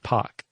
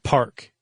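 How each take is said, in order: First: The R sound after the vowel is dropped. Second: The R sound after the vowel is pronounced. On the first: "non-rhotic would be like" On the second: "Rhotic is where the R is hard"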